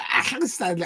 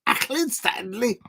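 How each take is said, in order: First: A badly faked Scouse accent on "Accrington Stanley", clumsy and overdone; butchered Scouse accent. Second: Put-on a light Scouse accent lifted higher; quoting the old milk advert in a Scouse accent; imitating a Scouse kid. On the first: Vlogger botches the milk advert kid's Scouse accent. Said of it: "I can't do that accent. I butchered it". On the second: Remembering the milk advert kid, higher mock Scouse accent. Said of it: "I can't do that accent".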